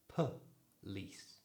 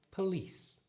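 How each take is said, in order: First: Slow, split police as puh, lease; schwa in first syllable. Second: Quick, higher police with a weak puh; natural pronunciation. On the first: Teacher demonstrating the schwa, police slowly in two parts. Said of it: "replace it with the schwa sound". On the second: Teacher saying it more naturally, police quick and joined. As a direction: join police up, first vowel shrunk to a schwa. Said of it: "Say it more naturally". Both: Shown as a demonstration.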